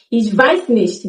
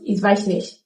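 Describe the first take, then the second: First: Nicht ends with a clear t sound. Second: Nicht ends without its t sound.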